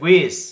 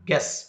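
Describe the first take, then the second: First: A u sound follows the g. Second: No u sound follows the g. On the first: The speaker calls it wrong. "Don't say ಗುಯಿಸ್" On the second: The speaker calls it right. "We have to pronounce ಗೆಸ್"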